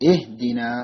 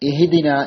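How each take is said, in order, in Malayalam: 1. h ശബ്ദം കൽക്കലയില്ലാതെ സാധാരണമായി ഉച്ചരിക്കുന്നു. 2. h ശബ്ദത്തിന് പ്രതിധ്വനിപോലെ കൽക്കല നൽകുന്നു. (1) "ഇഹ്ദിന എന്നാണ് ഓതേണ്ടത്" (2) "ചിലര് ഹാഇന് കൽക്കല കൊടുക്കാറുണ്ട്, ഇപ്രകാരം ഓതാറുണ്ട്"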